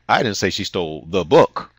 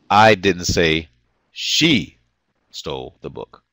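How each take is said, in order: First: The word "book" is stressed. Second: The word "she" is stressed.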